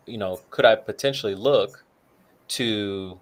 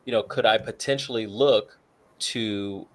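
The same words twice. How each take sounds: The two takes are said the same way.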